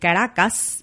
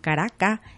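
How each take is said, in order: First: The final s is clearly pronounced. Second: The final s is dropped, Venezuelan style.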